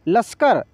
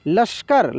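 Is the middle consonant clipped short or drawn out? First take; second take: clipped; clipped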